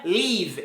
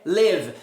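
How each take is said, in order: First: "leave" with a long EE; Portuguese I sound in "leave"; wrong long vowel. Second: "live" with a short closed ê-like vowel; short lax I in "live"; correct short vowel. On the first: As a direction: say "leave" as leev. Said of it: "não é leave". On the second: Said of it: "é live". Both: Shown as a demonstration.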